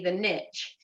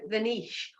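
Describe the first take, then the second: First: Niche is said the American way, like nitch. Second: Niche is said the British way, like neesh.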